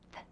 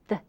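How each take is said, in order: First: The th sound is like the start of thin. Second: The th sound is like the start of this. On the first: "as in thin" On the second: "as in this"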